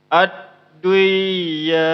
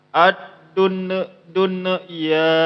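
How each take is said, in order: First: The n is merged away into the ya. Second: The n bounces, repeating dun before ya. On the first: "Jangan didengung, jangan diidghamkan, jangan dimasukkan" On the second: "Jangan juga dimantulkan"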